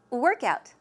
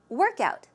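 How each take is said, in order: First: The stress falls on the first part, work. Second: The stress falls on the first part, work.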